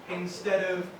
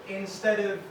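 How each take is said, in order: The two takes are said the same way.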